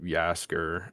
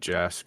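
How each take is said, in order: First: The name begins with a Y sound. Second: The name begins with a J sound. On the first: "I think that's a J or a Y sound" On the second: "I think that's a J or a Y sound"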